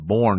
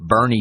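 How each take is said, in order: First: It is one syllable, like the word born. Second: It is two syllables, sounding like Bernie. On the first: The speaker calls it wrong. "we were pronouncing it Bourne because it's spelled like Jason Bourne" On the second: The speaker calls it right. "but Bernie"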